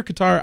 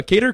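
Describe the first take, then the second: First: Qatar said as kuh-TAR; Qatar with a short first syllable, ending like "tar"; alternative pronunciation. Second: Qatar said as KAY-ter; Qatar rhyming with "cater"; alternative pronunciation. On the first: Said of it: "heard it pronounced many different ways". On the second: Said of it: "I don't know how you pronounce it". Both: Shown as a demonstration.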